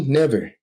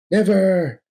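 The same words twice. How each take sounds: First: Higher shouted refusal; firm shout. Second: Much higher, louder final cry; Bruce's loudest refusal; bigger shout. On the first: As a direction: throw the word at him. Defiant refusal. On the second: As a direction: scream it out at full force. Defiant refusal escalates. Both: Acted.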